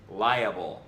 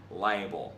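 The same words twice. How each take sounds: First: Liable slowly, as LY-uh-bul; three-syllable pronunciation. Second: Liable squeezed to LY-bul; reduced pronunciation. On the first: Reader shows the right way, three-syllable liable. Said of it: "It's pronounced liable". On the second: Reader shows how not to say it, two-syllable liable. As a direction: drop the middle syllable of liable. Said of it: "not liable". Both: Shown as a demonstration.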